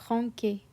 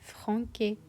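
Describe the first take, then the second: First: The middle consonant is a hard K sound. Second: The middle consonant is a hard K sound.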